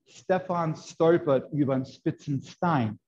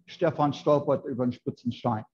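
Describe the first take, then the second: First: The S sounds are crisp and sharp. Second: The S sounds are slurred and softer. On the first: This is how northern Germans say it. "with the sharp S that the Germans say, in Northern Germany" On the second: This is how southern Germans say it. "they slur it more"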